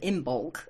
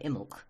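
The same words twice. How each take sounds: First: Every written letter is pronounced in full. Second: Several written letters are left unpronounced. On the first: This follows the spelling exactly. The speaker calls it wrong. "instead of Imbolc, which it is" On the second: This is how people usually say it. The speaker calls it right. "we don't say most of it, we just say Imbolc"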